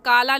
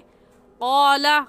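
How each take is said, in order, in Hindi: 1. पहला व्यंजन हल्का है, होंठ गोल नहीं हैं। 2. पहला व्यंजन भारी है, होंठ गोल हैं। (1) "यहाँ पर भी हम काला नहीं कहेंगे" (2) "क़ाफ मोटे हरूफ में से है, मोटा करके पढ़ेंगे"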